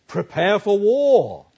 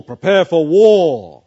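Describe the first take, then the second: First: Prepare for war slowed, war leaning down hard; slow, rising call, landing heavily on war; call to arms. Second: Prepare for war much louder and slow, war falling hard; rallying cry. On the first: Preacher voicing Paul's call to arms. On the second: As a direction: bellow it slowly as a battle cry. Preacher repeats Paul's call to arms. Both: Acted.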